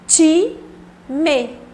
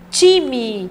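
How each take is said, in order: First: The word is split with a pause between syllables. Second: The word is said smoothly without breaks.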